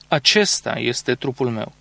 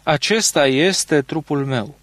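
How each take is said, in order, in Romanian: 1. Accentul cade pe cuvântul acesta. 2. Accentul cade pe cuvântul este. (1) "pune accentul pe acesta" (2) "Calvin pune accentul pe este"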